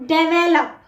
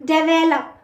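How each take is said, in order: Both takes have the same delivery.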